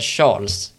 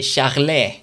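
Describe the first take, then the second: First: The name is pronounced the English way. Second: The name is pronounced a non-English way. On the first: The speaker calls it wrong. "rent engelskt så vill man säga Charles" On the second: The speaker calls it right. "Men det är Charles"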